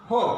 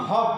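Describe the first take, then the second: First: হোপ with a narrow, rounded long o; narrowed vowel. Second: হপ with an open short o; straight short vowel. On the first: Teacher recalls earlier pair, narrowed vowel in হোপ. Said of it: "একটু narrow হয়ে". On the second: Teacher recalls earlier pair, straight short vowel in হপ. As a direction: keep the o of হপ straight. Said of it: "pronunciation খেয়াল করো". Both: Shown as a demonstration.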